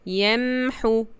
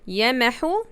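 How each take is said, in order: First: A brief pause follows the m sound. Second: A short vowel follows the m sound. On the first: The speaker calls it right. "I make a very little pause on the sukun sound" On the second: The speaker calls it wrong.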